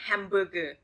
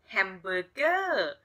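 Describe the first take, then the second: First: It is said with an English accent. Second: It is said with a Thai accent.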